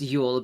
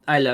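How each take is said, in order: First: It begins with a 'y' sound, like 'Yule'. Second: It begins with an 'eye' sound, like 'Eile'. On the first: The speaker calls it wrong. "when you read it in English, it's Yule" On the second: The speaker calls it right. "it's pronounced um Eile because it's the German word for owl"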